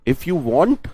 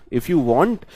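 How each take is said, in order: Both takes have the same delivery.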